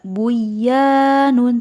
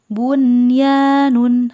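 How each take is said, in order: First: The n sound before y is dropped. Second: The n sound before y is clearly heard. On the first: The speaker calls it wrong. "Tidak buyanun" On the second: The speaker calls it right. "tetapi bunyanun"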